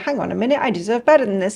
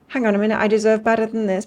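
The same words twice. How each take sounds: First: It is said in a stroppy, indignant tone. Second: It is said in a calm, reasonable tone.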